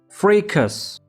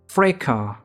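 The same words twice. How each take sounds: First: It is said with an American English pronunciation. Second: It is said with a British English pronunciation. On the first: "In American English we pronounce it as fracas" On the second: "in British English we pronounce it as fracas"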